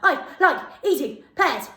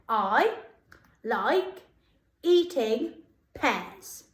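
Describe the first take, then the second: First: It is said as fast as possible. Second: It is said at a normal, steady speed.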